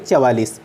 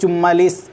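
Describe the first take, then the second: First: The middle consonant is a v sound. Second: The middle consonant is a doubled m sound. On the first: The speaker calls it right. "इसका सही रूप है" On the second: The speaker calls it wrong. "इसका भी अशुद्ध रूप"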